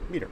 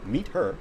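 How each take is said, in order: First: The h sound in 'her' is dropped. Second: The h sound in 'her' is pronounced.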